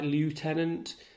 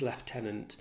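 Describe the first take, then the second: First: The word is pronounced the American way. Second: The word is pronounced the British way. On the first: "Americans would pronounce it that way" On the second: "in British English, it becomes lieutenant"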